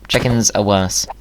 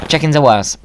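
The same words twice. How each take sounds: First: Said in the usual way. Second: Mock declaration.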